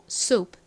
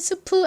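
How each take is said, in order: First: It is said as American one-syllable soup. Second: It is said as the Korean loanword seupeu. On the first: The speaker calls it right. "미국식으로는 스프 아니고 soup" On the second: The speaker calls it wrong. "한국식 이 스프"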